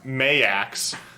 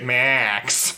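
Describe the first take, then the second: First: The name is said with two syllables. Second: The name is said with one syllable. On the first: The speaker calls it right. "it's supposed to be pronounced Mayax" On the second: The speaker calls it wrong. "there are so many instances where they just say Max"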